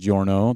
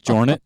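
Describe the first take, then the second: First: The name ends in an 'o' vowel sound. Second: The name ends in 'net', rhyming with hornet. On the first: The speaker calls it right. "the correct pronunciation of his last name" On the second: The speaker calls it wrong. "obviously his last name's not Jornet, so I can't use Hornet"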